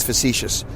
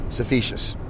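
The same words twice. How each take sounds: First: Said in the usual way. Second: "facetious" with its first sounds muddled, like "suh-feeshus"; mispronounced word. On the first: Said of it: "I know the word's facetious". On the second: Shown as a demonstration. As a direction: slowly say "facetious" as "suh-fee-shus". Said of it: "so I say facetious".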